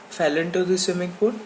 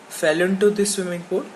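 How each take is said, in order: No difference in how they are said.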